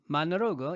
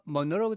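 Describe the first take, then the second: First: It is said with an American accent. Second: It is said with a British accent. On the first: "미국식은" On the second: "영국식은"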